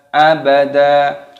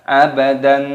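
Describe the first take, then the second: First: The word ends in a long vowel. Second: The word ends in an n sound. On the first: The speaker calls it right. "Ketika berhenti maka di sini dibaca panjang" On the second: The speaker calls it wrong. "bukan abadan. Nah, salah"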